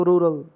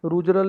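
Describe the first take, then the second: First: रूरल as ROO-rul, no j; two beats in रूरल, falling; correct pronunciation. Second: रूजरल with a j sound inside, ROO-juh-ral; three beats in रूजरल; wrong pronunciation. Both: Shown as a demonstration. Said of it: "रूजरल नहीं बोलना इसको".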